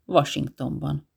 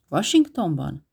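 First: Said in the usual way. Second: Washingtonban asked back in disbelief, slightly louder; repeating the word in mild surprise; surprised question. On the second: Acted. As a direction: echo Washingtonban as a startled question. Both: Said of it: "Ismételte Jill".

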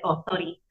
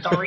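First: Put-on quick "sorry" in an Indian accent, softer. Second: Said in the usual way. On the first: Vlogger slipping while speaking Hindi, Indian accent. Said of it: "I made a mistake and I said". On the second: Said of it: "instead of".

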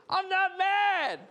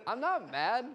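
First: Very high, drawn-out mock-furious yell; loud, slow, hammed-up outburst; exploding denial. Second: Higher-pitched, mildly defensive denial; acted protest, still fairly contained. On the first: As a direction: blow up comically while denying it. Final exploding denial in argument. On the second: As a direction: imitate someone starting to get irked. First denial in acted teasing argument.

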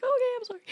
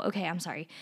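First: Much higher, squeaky mock "Okay, I'm sorry"; mock meek apology. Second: Said in the usual way. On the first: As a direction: play your younger self caving in to the teacher with a high sheepish sorry. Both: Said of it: "And I was like".

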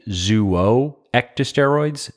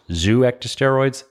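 First: "zooectosteroids" begun as two syllables, zoo-oh; tentative pronunciation. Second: "zooectosteroids" begun as one syllable, zoo; alternative pronunciation. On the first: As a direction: say "zooectosteroids" as zoo-oh-ecto-steroids, slowly. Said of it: "I couldn't find the pronunciation online". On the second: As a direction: say "zooectosteroids" as zoo-ecto-steroids, without the extra oh. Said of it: "That sounds wrong to me". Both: Shown as a demonstration.

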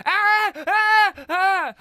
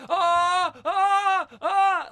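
First: Very high, loud repeated shrieks; mock high-pitched screams; imitated scream. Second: Loud, high mock yells in bursts; repeated imitated screams; Brandon. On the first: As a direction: shriek in bursts, mimicking a woman screaming. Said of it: "I hear Katie going". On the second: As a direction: imitate a man screaming, yell after yell. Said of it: "I also hear Brandon going".

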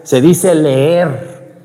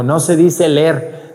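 First: Leer with a long, slow stretched ee; drawn-out leer. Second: Said in the usual way. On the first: Retold or imitated. Girl correcting the secretary: leer stretched long and slow. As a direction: stretch the vowel: leeer, very slowly. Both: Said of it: "le dijo".

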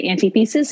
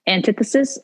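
First: Antithesis as AN-tee-THEE-sis; alternate pronunciation. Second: Antithesis as an-TITH-uh-sis; stress on second syllable. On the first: Showing the other way, AN-tee-THEE-sis. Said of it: "sometimes I say antithesis". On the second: Giving an example of emphasis, an-TITH-uh-sis. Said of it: "put the emphasis on the wrong one". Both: Shown as a demonstration.

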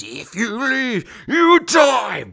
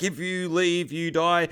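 First: Slow, high, stretched-out menace swelling loud; ghostly radio voice. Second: Said in the usual way. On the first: Retold or imitated. Ghost on the radio threatens soldiers, slow eerie wail. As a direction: wail it slowly, ending in a loud high cry. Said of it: "on the radio again, it comes in".

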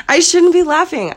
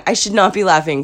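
First: "shouldn't be laughing" blurted in a high voice; high self-reproach. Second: "not" set apart and punched; stress on NOT. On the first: Woman catching herself laughing at her bad luck, high self-reproach. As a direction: scold yourself, high, on "shouldn't". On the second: Woman correcting herself for laughing, stress on "not". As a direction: restate it firmly, leaning on "not". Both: Real, not acted.

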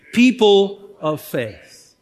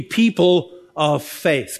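First: Slow, firm call on "People of faith"; congregational call-out. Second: Said in the usual way. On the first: Shown as a demonstration. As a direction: draw out "People of faith" for everyone to join in. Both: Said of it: "Come on, say that with me".

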